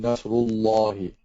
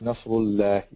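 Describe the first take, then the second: First: The L in Allah is heavy and thick. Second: The L in Allah is light and thin. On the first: The speaker calls it right. "It has to be Nasrullahi" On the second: The speaker calls it wrong. "What you're pronouncing is Nasrullahi, which is not correct"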